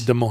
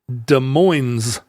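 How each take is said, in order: First: The final S of Moines is silent. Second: The final S of Moines is pronounced. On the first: This is how people in Iowa say it. "In Iowa, they don't pronounce either S" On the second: This is how the nearby local town says it. "we don't pronounce the S on the days, but we do pronounce the S at the end"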